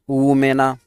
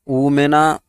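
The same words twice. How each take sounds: The two takes are said the same way.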